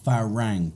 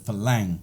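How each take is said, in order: First: The second consonant is an R sound. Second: The second consonant is an L sound. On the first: This is the dictionary form of the word. "it's actually an R" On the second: This is how local speakers commonly say it. "they change it to an L"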